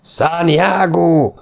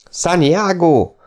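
First: Long, slow, high war cry; battle cry. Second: Long, slow, high war cry; battle cry again. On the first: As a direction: stretch the war cry out slowly. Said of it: "visszhangzott a kiáltás". (elnyújtott, magas csatakiáltás) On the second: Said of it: "hangzott újra a kiáltás". (elnyújtott, magas csatakiáltás a lovasok ajkán) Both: A narrator's reading.

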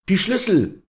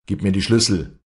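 First: High, loud burst of anger; furious cry. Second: Loud, firm, higher-pitched order; strong command. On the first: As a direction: explode in anger, demanding. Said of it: "schrie Walli in ausbrechendem Zorn". (zorniger Aufschrei, hoch und laut) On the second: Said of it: "befahl sie mit starker Stimme". (mit starker Stimme befohlen) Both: Acted.

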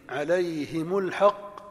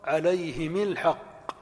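First: عليهم الحق said as alayhimu lhaqq; slow, u after the mim; عليهمُ الحق بالضم; damma variant. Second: عليهم الحق said as alayhimi lhaqq; slow, i after the mim; عليهمِ الحق بالكسر; kasra variant. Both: Shown as a demonstration. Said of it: "والكسر إتباعًا".

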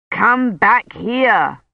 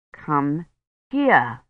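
First: Slow, emphatic shouted order; contained shout, every word stretched. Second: Low, softened, spaced-out order; calm command with a pause between words. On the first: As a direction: draw out each word as a command. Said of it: "Dunworthy shouted". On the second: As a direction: bring it down, word by word. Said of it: "he said more calmly". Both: A narrator's reading.

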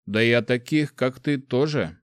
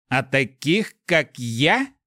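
First: Said in the usual way. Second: The echoed words thrown back, higher and menacing; с угрозой; flaring fury. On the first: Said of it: "plain question". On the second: A narrator's reading. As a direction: flare up, mildly menacing. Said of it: "Голос вспыхнул яростью".

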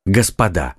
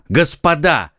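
First: Said in the usual way. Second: Interrupting. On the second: Acted. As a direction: break in firmly. (резкий окрик, перебивая) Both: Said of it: "прервал их Д'Артаньян".

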